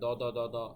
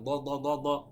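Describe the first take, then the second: First: A plain light d, like the Bengali letter. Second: A heavy d with puffed cheeks and the tongue back. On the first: The speaker calls it wrong. "দ দ দ দ এভাবে না" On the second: The speaker calls it right. "এভাবে বলতে হবে"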